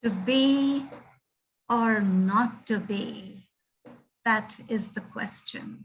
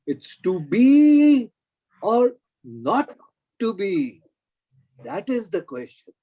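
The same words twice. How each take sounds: First: To be, then a slow or not to be, stress on or; slow, pausing delivery with the weight on or; professor's reading of the line. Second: It's to be hit hard, loud and slow, then or not to be, that is the question; stress on TO BE. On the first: Asked to show how to say it, reads with stress on or. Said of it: "how do you say it". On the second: Correcting the professor, hits to be hard. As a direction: punch to be hard and slow, pause before or not. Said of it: "You have to stress that". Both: Shown as a demonstration.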